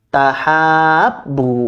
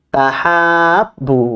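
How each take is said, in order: No difference in how they are said.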